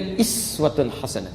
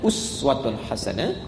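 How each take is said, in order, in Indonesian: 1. Kata pertama dimulai dengan vokal 'ee'. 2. Kata pertama dimulai dengan vokal 'oo'. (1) "Ini bisa juga iswatun hasanah" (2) "Kata uswah"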